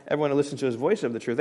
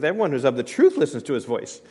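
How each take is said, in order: First: Fast toss-off of the wrong wording; wrong order, rushed. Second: Said in the usual way. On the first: Shown as a demonstration. Pastor quickly reading the wrong order to his congregation. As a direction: rattle off "Everyone who listens to his voice of the truth" quickly as the wrong version. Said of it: "It's not". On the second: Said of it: "the order it says it".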